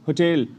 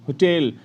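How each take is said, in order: No difference in how they are said.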